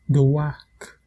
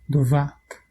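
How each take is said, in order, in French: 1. La consonne du milieu est un son w. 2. La consonne du milieu est un son v.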